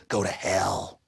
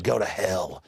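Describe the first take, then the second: First: Low, dismissive sneer, a bit softer; mocking the TSA's dismissal, quieter; sneering TSA reply. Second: Low, dismissive sneer; mocking the TSA's dismissal; sneering TSA reply. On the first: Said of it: "they said". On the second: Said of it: "the T S A said". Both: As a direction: brush them off with contempt.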